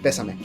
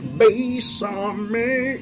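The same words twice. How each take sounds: First: The word is pronounced plainly and normally. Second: The word is pronounced in a distorted, affected manner.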